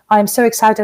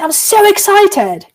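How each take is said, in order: First: The pitch stays flat with little melody. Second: The pitch moves widely with strong melody. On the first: "Everything is flat, and you can say... and you say it like that" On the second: "You don't say"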